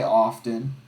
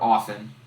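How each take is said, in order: First: The T in the middle is pronounced. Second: The T in the middle is silent. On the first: The speaker calls it wrong. "I always pronounce the T in often" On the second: The speaker calls it right. "You don't pronounce the T in often"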